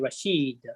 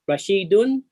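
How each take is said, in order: First: The word stops without the -un ending. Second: The word ends with a full -un ending. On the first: "Because you rest on the last letter, you say Rashid" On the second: "how you pronounce Rashidun?"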